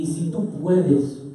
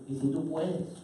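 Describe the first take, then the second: First: Said in the usual way. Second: Soft, doubtful plea; quietly voiced doubting request; hesitant father. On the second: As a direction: say it small and unsure. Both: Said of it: "le dice así".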